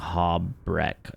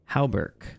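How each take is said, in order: First: The R comes before the vowel in syllable two. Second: The R comes after the vowel in syllable two. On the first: The speaker calls it wrong. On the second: The speaker calls it right.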